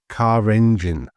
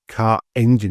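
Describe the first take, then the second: First: An R sound links the two words. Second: No R sound links the two words. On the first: The speaker calls it right. "we have car engine" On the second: The speaker calls it wrong. "you get this kind of stick in your throat"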